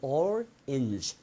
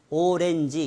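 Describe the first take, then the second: First: It is said with English sounds and stress. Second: It is said with Korean-style syllables and vowels. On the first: The speaker calls it right. "orange 이게 잘 안 될 수 있습니다" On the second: The speaker calls it wrong. "오렌지 이렇게 알고 계신 분은"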